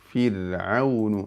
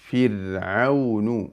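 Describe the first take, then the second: The two takes are said the same way.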